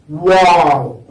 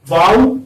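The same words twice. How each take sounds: First: „Wow." said with lips rounded from the start. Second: „wow" said with lips spread wide; „wow" with wide, spread lips and no rounding. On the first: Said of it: "you pronounce it with rounded lips". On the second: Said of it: "pronounced with spread lips". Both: Shown as a demonstration.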